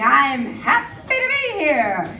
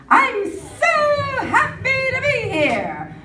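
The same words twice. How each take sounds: First: Said in the usual way. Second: High, slow, sung-out chirp of joy; sing-song happy athlete. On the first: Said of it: "I rarely see anybody going". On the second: Retold or imitated. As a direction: sing it like a beaming Olympian. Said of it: "everybody is happy to be here".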